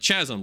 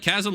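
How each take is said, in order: First: The word begins with a CH sound. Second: The word begins with a hard K sound. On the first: "like like like C H" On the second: "like like with a K"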